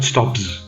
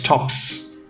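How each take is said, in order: First: The word ends with a z sound. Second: The word ends with an s sound. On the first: The speaker calls it wrong. "not stops" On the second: The speaker calls it right. "number five is stops"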